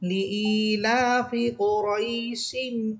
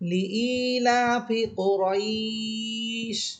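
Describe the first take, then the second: First: The vowel in 'raish' is kept short. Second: The vowel in 'raish' is stretched long. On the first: The reader joins it to the next verse. "এখানে কোনো টান হচ্ছে না" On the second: The reader stops at the end of the verse. "এই থামার কারণে এখানে আমরা টেনে পড়তেছি"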